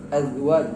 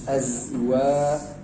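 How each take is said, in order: First: The z sound is said without a hiss. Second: The z sound is said with a strong hiss. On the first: The speaker calls it wrong. "jangan sampai seperti za ya" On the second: The speaker calls it right. "tapi betul-betul berdesis dia"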